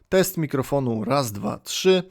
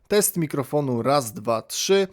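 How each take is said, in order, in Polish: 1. Głos ma mocniejsze niskie częstotliwości. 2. Głos brzmi czyściej w średnich częstotliwościach. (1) "Kruger and Matz mocniej podbijał niskie częstotliwości" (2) "głos zarejestrowany tym mikrofonem był bardziej wyraźny"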